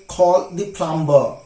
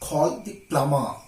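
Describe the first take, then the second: First: The B sound is pronounced. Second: The B sound is silent. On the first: The speaker calls it wrong. "It's wrong to say so" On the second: The speaker calls it right. "B is silent there"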